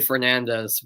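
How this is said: The name is said the English commentators' way. The speaker calls it wrong. "the commentators always say Fernandez, but that's not the proper way to say it"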